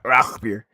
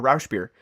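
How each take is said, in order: First: The consonant after 'Rau' is a gruff throaty sound. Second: The consonant after 'Rau' is a soft 'sh'. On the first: The speaker calls it right. "very gruff sound. That's all. Just say it like that" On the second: The speaker calls it wrong. "I thought it was a, a Rausch beer"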